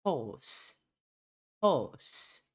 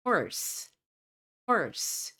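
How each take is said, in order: First: British "Horse" with silent r; non-rhotic British Horse; British pronunciation. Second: American "horse" with a strong r; American pronunciation. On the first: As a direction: say Horse as "hawss". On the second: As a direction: say horse with the r fully sounded. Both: Shown as a demonstration. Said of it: "o R tem uma pronúncia mais forte".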